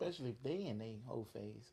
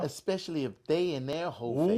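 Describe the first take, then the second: First: It is said at normal, quieter volume. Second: It is said louder, with more force.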